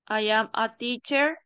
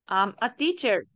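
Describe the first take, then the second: First: 'I am' is said as two full words. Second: 'I am' is shortened into one syllable.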